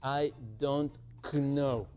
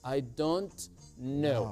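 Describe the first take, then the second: First: The k at the start of know is pronounced. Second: The k at the start of know is silent. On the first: The speaker calls it wrong. "No se dice I don't know" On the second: The speaker calls it right. "Exacto, es muda. El sonido es mudo. Dice I don't know"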